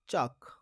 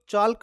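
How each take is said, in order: First: The L sound is silent in the word. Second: The L sound is pronounced in the word. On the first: The speaker calls it right. "इसमें एल silent है।" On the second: The speaker calls it wrong. "इसको चौल चाल्क मत पढ़ना।"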